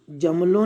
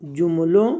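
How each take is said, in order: First: जमलों said with a short a in the first syllable, "jam-lon"; जमलों with a in place of u; wrong reading. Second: जुमलों said with a short u in the first syllable, "jum-lon"; जुमलों with a clear u vowel; correct reading. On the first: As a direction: read जमलों as "jamlon", the mistaken way. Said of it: "जमलों नहीं पढ़ेंगे". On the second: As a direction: read जुमलों as "jumlon", the right way. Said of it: "क्या पढ़ेंगे इसे". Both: Shown as a demonstration.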